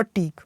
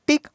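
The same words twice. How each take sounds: First: टीक with a long ee; long vowel. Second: टिक with a short i; short vowel. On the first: Teacher introducing the last pair to students, long vowel. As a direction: stretch the ee in टीक. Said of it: "इसका sound long है". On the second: Teacher introducing the last pair to students, short vowel. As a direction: keep the i in टिक brief. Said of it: "short sound है". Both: Shown as a demonstration.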